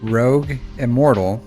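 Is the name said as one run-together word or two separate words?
two words. The two words are separated by a small gap. The name is written with a space. "they just don't like spacing"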